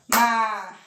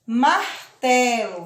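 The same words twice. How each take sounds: First: "Martelo" in three separate beats, mar - te - lo; split into syllables. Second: Said in the usual way. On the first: Shown as a demonstration. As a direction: pause after each syllable of "Martelo". ("Martelo" separado em sílabas: mar - te - lo) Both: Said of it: "Vamos separar a palavra martelo".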